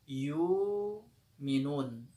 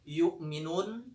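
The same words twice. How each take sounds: First: A long 'oo' vowel replaces the glottal stop. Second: A glottal stop comes before the second syllable.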